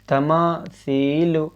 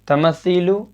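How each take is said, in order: First: The vowel after 'm' is stretched long. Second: The vowel after 'm' is cut short. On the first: The speaker calls it right. "यहाँ अलिफ मद्दा है" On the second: The speaker calls it wrong. "नहीं होगा"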